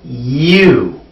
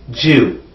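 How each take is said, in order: First: The word begins with a y sound. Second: The word begins with a j sound. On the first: The speaker calls it right. "It's you" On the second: The speaker calls it wrong. "You don't want to say j"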